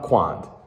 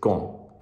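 First: The final letters are sounded out. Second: The final letters are left silent. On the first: The speaker calls it wrong. "it's not quand" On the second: The speaker calls it right. "You don't pronounce the A and the D"

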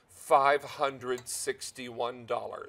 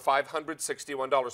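First: It is said slowly and deliberately. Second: It is said at normal speed.

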